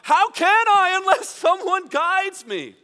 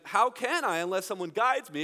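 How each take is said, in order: First: It is shouted loudly over noise. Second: It is said at a normal, quiet level.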